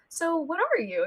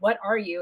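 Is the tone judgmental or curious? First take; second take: curious; judgmental. First: It sounds curious and friendly. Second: It sounds judgmental and suspicious.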